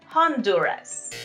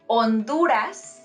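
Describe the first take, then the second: First: The initial H is pronounced. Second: The initial H is silent. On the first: The speaker calls it wrong. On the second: The speaker calls it right. "Remember that letter H is silent"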